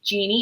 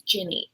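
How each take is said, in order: First: The word sounds like 'genie', with a long vowel. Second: The word sounds like 'ginny', with a short vowel. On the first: The speaker calls it wrong. "they keep pronouncing it Genie" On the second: The speaker calls it right. "it's Ginny"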